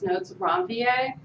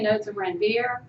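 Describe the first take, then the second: First: Ranvier is pronounced in a French way. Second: Ranvier is pronounced in an English way. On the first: "it's a French term, so it's" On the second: "Some people might say"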